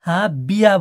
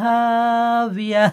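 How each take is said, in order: First: The lips touch for the middle consonant. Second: The lips stay apart for the middle consonant. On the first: The speaker calls it wrong. "হাবিয়া বলবেন না" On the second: The speaker calls it right. "দুই ঠোঁট না মিলিয়ে মাঝখান থেকে উচ্চারণ হবে"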